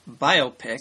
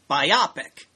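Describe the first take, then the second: First: It is said as two parts, bio plus pic. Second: It is said rhyming with the word myopic. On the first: The speaker calls it right. "it's pronounced biopic. ... Biography pick" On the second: The speaker calls it wrong. "not biopic. ... like myopic"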